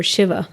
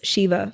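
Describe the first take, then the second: First: Shiva with a short i, SHIV-a; corrected pronunciation. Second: Shiva in an American accent, long "ee": SHEE-va; Americanised "Shiva" with a long ee vowel. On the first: Speaker correcting the god's name, Shiva said SHIV-a with short i. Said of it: "I can't believe I said that with an American accent". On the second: Naming the Lord of the Dance, Shiva said the American way as SHEE-va. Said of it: "said that with an American accent". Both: Real, not acted.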